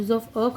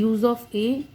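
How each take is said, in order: First: "a" said as a short "uh"; schwa A. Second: "a" said as the letter name, "ay". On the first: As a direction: say "a" as the unstressed article sound, "uh". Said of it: "जब अ की sound होगी". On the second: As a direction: say "a" like the alphabet letter, to rhyme with "day". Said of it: "यानी use of a". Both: Shown as a demonstration.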